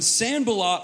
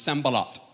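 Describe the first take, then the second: First: The name is pronounced with American English sounds. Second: The name is pronounced with Hebrew sounds. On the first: The speaker calls it right. "We're going to say it in American English" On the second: The speaker calls it wrong. "the way that you say this is, in Hebrew, is Sanballat"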